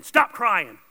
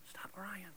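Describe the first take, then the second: First: Louder, harsher command; the stern version, not the loving one; firm stop crying. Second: Soft unvoiced whisper; hushed, tender whisper of "stop crying"; loving whisper. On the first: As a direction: bark it out as a rebuke. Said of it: "him not saying". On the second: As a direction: whisper it gently to comfort. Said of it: "It's a loving way". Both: Shown as a demonstration.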